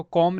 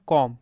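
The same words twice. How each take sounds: First: कॉम with a b sounded after the m; b wrongly sounded. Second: कॉम ending on m, no b sound; silent b. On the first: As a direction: add a b to the end of कॉम. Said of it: "इसको कॉम नहीं पढ़ेंगे". (कॉम के अंत में ब बोलकर) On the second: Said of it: "क्या पढ़ेंगे". (कॉम, अंत में ब की आवाज़ नहीं) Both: Shown as a demonstration.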